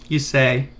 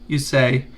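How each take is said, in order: Both takes have the same delivery.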